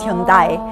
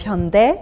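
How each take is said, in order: First: Hyundai said hyun-dye; "Hyundai" ending like die; Japanese-style pronunciation. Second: Hyundai said hyun-deh; "Hyundai" ending in eh; Korean pronunciation. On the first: Explaining the marketed name, Japanese-style pronunciation. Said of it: "with a Japanese pronunciation". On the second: Explaining what it never got marketed as, Korean pronunciation. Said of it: "It pronounces it the Korean way". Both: Shown as a demonstration.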